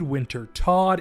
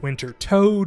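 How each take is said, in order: First: The last syllable has a short o and ends in d. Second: The last syllable has a long o and ends in d. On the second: "I've heard it called Winter Toad"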